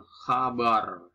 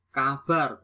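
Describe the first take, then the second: First: "khabar" with a throaty kh; nonstandard pronunciation. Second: "Kabar" with a hard k; standard pronunciation. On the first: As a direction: open "khabar" on a rasped kh. (ucapkan "khabar" dengan kh) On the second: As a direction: say "Kabar" with plain k, no kh. (ucapkan "Kabar" dengan k) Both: Shown as a demonstration. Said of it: "bukan khabar".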